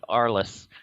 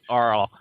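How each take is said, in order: First: The final S sound is pronounced. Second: The final S sound is left silent. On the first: The speaker calls it wrong. "I would call it Arliss" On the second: The speaker calls it right. "it's apparently Arl uh, when it runs"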